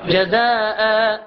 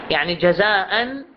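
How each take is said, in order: First: "جزاء" stretched very slowly, ending on a long "aa" with no nun; drawn-out pausal alif. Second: "جزاء" slowly with the final nun, "jazaa'an"; full tanween. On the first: Teacher showing the stop form to students. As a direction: hold the last vowel of "جزاء" long. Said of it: "يقرأ". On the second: Teacher giving the connected form first. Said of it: "بألف نحن نلفظه". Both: Shown as a demonstration.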